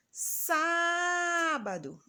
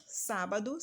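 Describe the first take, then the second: First: Sábado with a high, long, held SÁ; high held SÁ, then a quick bado in Sábado; calling out, drawn-out. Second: Said in the usual way. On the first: Shown as a demonstration. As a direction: call out Sábado, stretching the first syllable Sá very slowly. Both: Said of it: "como se estivesse chamando".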